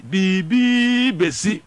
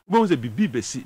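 First: Biribi bɛsi drawn out very slowly, louder, rising at the end; slow ominous emphasis. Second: Said in the usual way. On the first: Real, not acted. Pundit warns viewers about election day, biribi bɛsi said slowly and louder. Warning what will happen on polling day.

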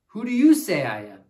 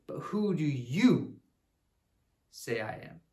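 First: Put-on "you" lifted and louder, asked straight at the kids; stress on you. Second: Jesus asking. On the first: Shown as a demonstration. Teacher turns Jesus's question to the kids, stressing "you". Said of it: "What about you?". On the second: Acted. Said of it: "He says".

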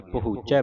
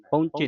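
First: ਪਹੁੰਚੈ ending in an open "ai"; open vowel ending. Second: ਪਹੁੰਚੇ ending in a close "e"; wrong vowel ending. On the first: Teacher tells learners how to read, ਪਹੁੰਚੈ with open "ai". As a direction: say ਪਹੁੰਚੈ with a wide final "eh". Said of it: "ਪਹੁੰਚੈ ਪੜਨਾ". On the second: Teacher shows what not to read, ਪਹੁੰਚੇ with close "e". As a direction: say ਪਹੁੰਚੇ with a narrow final "ay". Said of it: "ਪਹੁੰਚੇ ਨਹੀਂ ਪੜਨਾ". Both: Shown as a demonstration.

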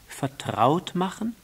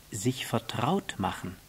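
First: High, rising echo; little prince questioning in a lifted voice; puzzled question. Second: Measured statement with falling end; understated fox's definition; fox explaining. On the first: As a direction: repeat it as a wondering question. Prince questions the fox's word. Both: Acted.

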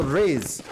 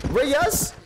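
First: "Reyes" said as one syllable, like "rays"; "Reyes" run together as RAYZ; one-syllable pronunciation. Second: "Reyes" said in two syllables, RAY-yas; drawn-out "Reyes" as RAY-yas, questioning; two-syllable pronunciation. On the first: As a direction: say "Reyes" to rhyme with "days". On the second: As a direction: sound out "Reyes" with a yas ending. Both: Shown as a demonstration. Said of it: "How you say your last name?".

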